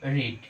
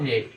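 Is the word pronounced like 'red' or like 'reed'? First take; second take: reed; red. First: The vowel is a long 'ee' sound. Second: The vowel is a short 'eh' sound. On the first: It is the present tense. "Present form কি রিডের রিড" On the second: It is the past tense. "Past form রিডের কি হয় রেড"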